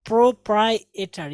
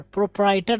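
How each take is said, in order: First: प्रोप्राइटर slowly, as "pro-prai-e-ter"; correct pronunciation. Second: प्रोप्राइटर as "pro-prai-ter"; wrong pronunciation. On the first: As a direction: sound a separate "e" in प्रोप्राइटर. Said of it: "ई की भी आवाज़ निकालेंगे". (प्रोप्राइटर, बीच में अलग "ए" के साथ) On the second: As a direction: say प्रोप्राइटर without the middle "e". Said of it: "प्रोप्राइटर नहीं होता है". (प्रोप्राइटर, बीच का "ए" छोड़कर) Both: Shown as a demonstration.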